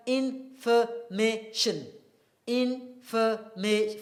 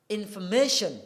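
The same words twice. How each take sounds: First: "Information" медленно, по слогам; slowly, syllable by syllable. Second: Said in the usual way. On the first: Shown as a demonstration. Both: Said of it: "how many syllables here?".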